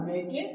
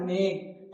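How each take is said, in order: First: मेके in two syllables, "may-kay"; wrong final e sounded. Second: मेक in one syllable, "mayk"; silent final e. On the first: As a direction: misread मेके with an e voiced at the end. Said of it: "नहीं बोलना है". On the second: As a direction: end मेक on the k. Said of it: "क्या बोलना है?". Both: Shown as a demonstration.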